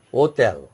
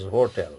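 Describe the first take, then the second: First: "Hotel" with silent H, "oh-tel"; French hotel. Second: "hotel" with the H sounded, "ho-tel"; English hotel. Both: Shown as a demonstration. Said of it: "English meaning is hotel".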